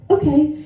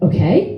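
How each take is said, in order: First: "Okay." with a settled falling tune, higher; firm confirmation. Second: Okay rising up in disbelief; surprised question. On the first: Father calmly confirming his yes with a flat, falling "Okay.". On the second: Daughter double-checking her father's sudden yes with a rising "Okay?". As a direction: ask "Okay?" with a rising, unsure tune. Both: Retold or imitated.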